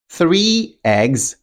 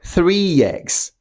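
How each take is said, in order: First: The words are said separately without a linking sound. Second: A y sound links the two words together.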